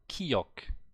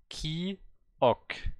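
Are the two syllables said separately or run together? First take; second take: run together; separately. First: The two syllables are said fast and run together. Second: The two syllables are said slowly and separately.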